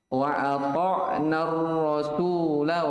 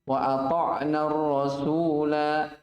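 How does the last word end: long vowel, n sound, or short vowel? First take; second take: short vowel; long vowel. First: The final vowel is short and runs straight on. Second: The final vowel is held long, for two counts. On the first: The reader joins it to the next verse. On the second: The reader stops at the end of the verse. "Kalau antum waqaf, bacanya berapa harokat? Dua"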